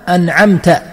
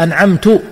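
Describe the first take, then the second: First: The word ends in ta. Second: The word ends in tu. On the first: It refers to the one addressed. The speaker calls it right. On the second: It refers to the speaker. The speaker calls it wrong.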